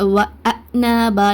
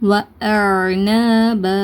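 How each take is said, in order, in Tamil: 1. நடுவில் இருக்கும் ஒலி ஒரு கூர்மையான கிளாட்டல் ஸ்டாப். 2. நடுவில் இருக்கும் ஒலி தொண்டைக்குள் பிடித்து வைக்கப்பட்டு, பின்னர் விடுவிக்கப்படுகிறது. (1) "இந்த மாதிரி ஹம்சாவோட சவுண்டை கொடுத்தும் உச்சரிக்கக்கூடாது" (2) "தொண்டையில் கொஞ்சம் நேரம் பிடிச்சி வச்சுட்டு அதுக்கப்புறம் ரிலீஸ் பண்ணுங்கள். வ ந ப இந்த மாதிரி உச்சரிங்க"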